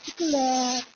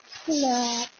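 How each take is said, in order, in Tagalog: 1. Sinabi ito sa malambing at matamis na accent ng Ilonggo. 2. Sinabi ito sa malambing at matamis na accent ng Ilonggo.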